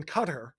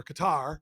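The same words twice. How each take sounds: First: Qatar said like "cutter"; Qatar as two syllables, CUT-ter; first pronunciation variant. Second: Qatar said as kuh-TAR; Qatar with an open, stressed final "TAR"; alternative pronunciation. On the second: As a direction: stress the second syllable of Qatar. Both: Shown as a demonstration. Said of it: "however you choose to pronounce it".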